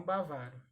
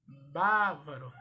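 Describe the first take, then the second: First: "bavaro" said ba-VA-ro; stressed VA in "bavaro"; wrong-form demo. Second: "bávaro" said BÁ-varo, loud; drawn-out stressed BÁ in "bávaro"; stress on first syllable. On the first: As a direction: hit the middle syllable of "bavaro". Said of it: "e não". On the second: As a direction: punch BÁ in "bávaro". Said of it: "e não bavaro". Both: Shown as a demonstration.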